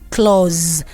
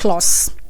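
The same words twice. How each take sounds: First: The word ends with a z sound. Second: The word ends with an s sound. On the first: The speaker calls it right. "The S there is producing the sound of Z. That's why I have to pronounce it as clause" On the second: The speaker calls it wrong. "and not clause"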